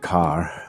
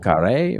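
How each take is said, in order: First: The word is said with one syllable. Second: The word is said with two syllables. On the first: "It's probably just car" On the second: "So I would say Vieux Carré"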